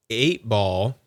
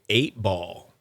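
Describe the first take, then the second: No difference in how they are said.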